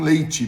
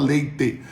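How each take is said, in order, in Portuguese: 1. A vogal final soa como 'ee'. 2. A vogal final soa como 'eh'. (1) "ele não transforma nem o leite em leite" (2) "não é com i que escreve, é com e, então ele fala leite"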